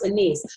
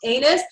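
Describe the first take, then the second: First: The second syllable sounds like 'iss'. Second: The second syllable sounds like 'us'. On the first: The speaker calls it right. "it's pronounced anise" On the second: The speaker calls it wrong. "obviously it's not pronounced anus"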